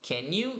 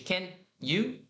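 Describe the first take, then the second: First: The two words run together as one sound. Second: The two words are separated by a short pause. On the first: The speaker calls it right. "Repara que eu estou juntando tudo aqui" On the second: The speaker calls it wrong. "Em vez de"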